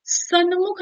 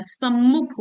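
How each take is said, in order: First: सन्मुख with a clear "n" before the m, pitched higher; raised pitch on wrong सन्मुख; wrong form. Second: सम्मुख with a long doubled "mm"; correct form. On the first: Teacher marks the wrong form for exam students. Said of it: "सन्मुख नहीं होता है". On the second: Teacher gives students the correct doubled m. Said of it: "सम्मुख होता है". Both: Shown as a demonstration.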